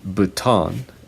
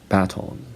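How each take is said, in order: First: It is said with an American pronunciation. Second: It is said with a British pronunciation. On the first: "Americans say" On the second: "British people say"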